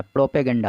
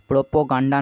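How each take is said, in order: First: प्रोपेगेंडा said with e sounds, pro-pe-gen-da; correct pronunciation. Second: प्रोपोगंडा said with o sounds, pro-po-gan-da; wrong pronunciation. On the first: Teacher correcting students, saying प्रोपेगेंडा with e vowels. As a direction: give प्रोपेगेंडा the right e vowels. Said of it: "प्रोपेगेंडा होता है". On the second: Teacher showing students the wrong form प्रोपोगंडा with o vowels. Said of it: "प्रोपोगंडा नहीं होता". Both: Shown as a demonstration.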